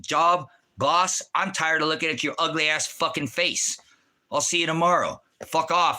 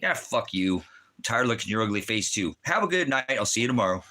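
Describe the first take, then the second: First: Retold rant at the boss, pitched higher; cheeky jab at his boss, a little raised; mock telling off the boss. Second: Lightly voiced boss, casual comeback; imitating the boss. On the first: Calling in sick, he mock-insults his boss, higher pitched. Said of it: "I said". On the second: Boss answers the mock insult, lightly voiced and casual. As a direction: toss the insult back, easygoing. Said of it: "what he says to me".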